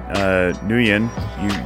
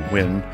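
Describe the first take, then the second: First: The name starts with an audible N sound. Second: The name starts with a W sound, no N. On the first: "You actually use the N" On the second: "sometimes we just say Win"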